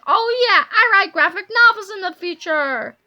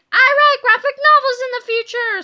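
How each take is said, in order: First: Loud, slightly milder crowing; gleeful shout. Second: High, loud shout of joy; overjoyed scream. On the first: Boy celebrates his future career, crowing loudly. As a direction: crow about it loudly. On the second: Boy learns his future career, screaming with joy. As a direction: shout it to the world, pitched way up. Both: A narrator's reading. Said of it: "screamed George".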